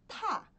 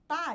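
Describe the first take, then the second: First: The t is released with a strong puff of air. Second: The t is plain, without a puff of air. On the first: The speaker calls it right. "Sopra, cospe a letra para fora da sua boca" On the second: The speaker calls it wrong. "não é tá de tatu"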